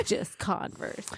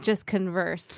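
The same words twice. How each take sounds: First: Soft "Converse", stressed on CON. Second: "converse" as a verb, stressed on VERSE; soft "converse", second syllable strong. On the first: Repeating the profile line, "Converse" stressed on the first syllable. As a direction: slowly say "Converse" like the shoe brand. Shoe reading before the corrected stress. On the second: Correcting a friend's reading, "converse" stressed on the second syllable. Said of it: "you've got the emphasis on the wrong syllable". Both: Shown as a demonstration.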